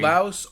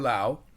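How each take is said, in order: First: The word ends with an audible S sound. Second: The word ends without any S sound. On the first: "there is an S" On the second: "I always just thought it was Lao"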